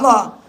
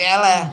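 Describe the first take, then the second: First: The vowels are open 'a' sounds. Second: The vowels are 'e'-like sounds. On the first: The speaker calls it right. "Jejek kalimat Allah ya Allah" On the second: The speaker calls it wrong. "jangan diganti eleh, nanti eleh-eleh ya bahaya"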